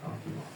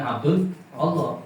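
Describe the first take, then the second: First: Allah is linked directly onto the previous word. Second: Allah starts with a separate glottal onset. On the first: The speaker calls it right. "tapi Ab Abdullah" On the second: The speaker calls it wrong. "bukan Abdul Allah"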